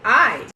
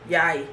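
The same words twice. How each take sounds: First: Said in the usual way. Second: "yai" with a y glide, lower; Jamaican mispronunciation. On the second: Shown as a demonstration. Showing how Jamaicans say eye, a lower "yai". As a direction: start on a y, "yai". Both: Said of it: "words that Jamaicans mispronounce".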